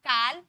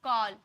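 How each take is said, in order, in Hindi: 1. यह स्वर 'o' की ध्वनि नहीं है। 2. यह स्वर 'o' की ध्वनि है। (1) "काल बोले क्या" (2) "ओ में पढ़े कॉल"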